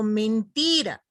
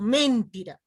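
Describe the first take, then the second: First: The stress is on the middle syllable. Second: The stress is not on the middle syllable. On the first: The speaker calls it right. "Digo mentira" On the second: The speaker calls it wrong. "no digo mentira"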